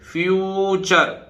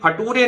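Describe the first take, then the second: First: It begins 'fyoo' and ends with 'chur'. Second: It is read letter by letter, ending 'too-ray'. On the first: The speaker calls it right. "ये फ्यू T U R E से चर" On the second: The speaker calls it wrong. "ये फटूरे नहीं है"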